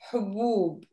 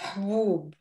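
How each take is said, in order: First: A vowel is heard after the first consonant. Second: No vowel is heard after the first consonant. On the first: This is the standard form. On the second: This is the everyday spoken form.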